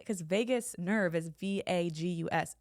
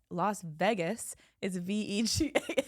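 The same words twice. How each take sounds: First: Vegas said VAY-gus, long a as in vague. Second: Vegas said VEH-gus, short e as in vet. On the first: Explaining her spelling to her co-host, VAY-gus, slow. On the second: Contrasting the city for her co-host, VEH-gus, slow. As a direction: say Vegas like VEH-gus, then spell it slowly. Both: Shown as a demonstration. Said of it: "That's why I say".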